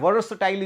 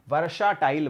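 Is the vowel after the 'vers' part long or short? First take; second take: short; long. First: A short, nearly dropped vowel follows the 'vers' part. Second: A long 'aa' vowel follows the 'vers' part. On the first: The actual pronunciation of the word. The speaker calls it right. "वर्षटाइल उच्चारण होता है इसका" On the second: A deliberate distortion to help remember the spelling. The speaker calls it wrong. "अब इसका उच्चारण गलत कर दीजिए"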